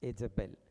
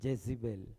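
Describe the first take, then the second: First: The name begins with an 'e' vowel. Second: The name begins with a 'j' sound.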